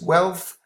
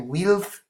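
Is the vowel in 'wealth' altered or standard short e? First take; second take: standard; altered. First: The word is said with a short e vowel. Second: The word is said with an altered vowel. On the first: The speaker calls it right. "No, this is wealth" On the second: The speaker calls it wrong. "don't be tempted to say wealth"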